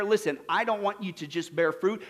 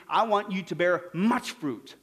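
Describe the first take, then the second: First: Said in the usual way. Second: Slow, with MUCH leaned on heavily; stress on MUCH. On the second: Shown as a demonstration. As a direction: draw out and punch the word "much".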